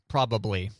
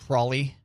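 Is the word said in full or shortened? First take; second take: full; shortened. First: All three syllables are clearly pronounced. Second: The word is squeezed into fewer syllables. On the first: "enunciate every syllable in that word" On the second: "instead of uh, probably or probably"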